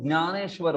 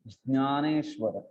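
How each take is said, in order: First: It starts without a clear 'j' sound. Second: It starts with a clear 'j' sound. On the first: "Marathi में हम लोग ज्ञानेश्वर बोल देते हैं" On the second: "जकार बोलना पड़ेगा, न्यकार बोलना पड़ेगा, फिर वो परफेक्ट प्रोनाउंसिएशन होगा"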